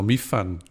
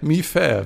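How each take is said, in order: First: It ends in a full nasal -an syllable. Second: It ends in an open -e vowel, no nasal. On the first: "kann ich mi fan sogar lesen" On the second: "Hier steht ein Ä"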